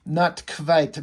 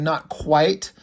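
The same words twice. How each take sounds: First: Put-on quite said as kvite in a light Russian accent; agent's "Not quite" with kvite, a hint of Russian accent. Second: Said in the usual way. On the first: Russian agent answers the nerd with a light Russian accent. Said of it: "to give her the Russian accent". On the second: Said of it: "Instead of saying".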